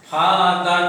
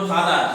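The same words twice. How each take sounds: First: "ফা আর দার", the word ফাদার given as two separate parts; split into syllables. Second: Said in the usual way. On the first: Shown as a demonstration. Teacher breaks ফাদার into two syllables, "ফা আর দার", syllable by syllable. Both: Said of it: "দুটো সিলেবেলে ভাঙতে পারো".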